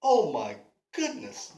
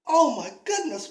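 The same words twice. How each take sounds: First: Low, admiring oh my goodness; Oh my goodness said low and smitten to the pretty lady; charmed gasp. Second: Higher, louder Oh my goodness, falling; Davy shocked at his own stalker thought, higher and louder; alarmed at himself. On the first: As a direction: breathe out Oh my goodness, taken by her. Davy admiring the woman. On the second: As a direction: jolt back from your own thought. Davy catches himself thinking stalking. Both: Acted.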